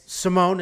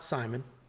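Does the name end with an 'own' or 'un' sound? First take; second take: own; un. First: The name ends with a long 'own' sound. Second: The name ends with a short 'un' sound. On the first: The speaker calls it right. "it's Simone" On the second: The speaker calls it wrong. "it's not Simon"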